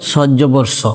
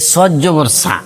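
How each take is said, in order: First: The final vowel is kept short. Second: The final vowel is drawn out long. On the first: The speaker calls it right. "সবসময় বলতে হবে সজ্জবর স" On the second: The speaker calls it wrong. "অনেকে বলে যে সজ্জবর সা"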